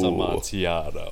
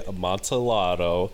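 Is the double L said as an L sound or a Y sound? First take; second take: Y sound; L sound. First: The double L is said as a Y sound. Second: The double L is said as an L sound. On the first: The speaker calls it right. "but it is Amontillado" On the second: The speaker calls it wrong. "I was gonna say Amontillado"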